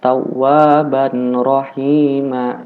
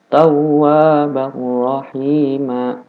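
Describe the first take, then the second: First: The n is pronounced clearly before the r. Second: The n is merged fully into the r. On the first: The speaker calls it wrong. "jangan dibaca tawwaban rahima, itu salah" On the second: The speaker calls it right. "Yang benar diidghamkan tawwaban rahima"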